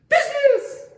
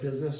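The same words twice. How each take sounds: First: The word is said loudly and excitedly. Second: The word is said in a calm, normal tone. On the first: The dog gets startled and stops. The speaker calls it wrong. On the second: The dog keeps going undisturbed. The speaker calls it right.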